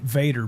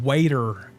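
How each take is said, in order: First: The name starts with a V sound. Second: The name starts with a W sound. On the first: The speaker calls it right. "he's pronounced it Vader" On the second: The speaker calls it wrong. "has only said Lord Waiter in one video"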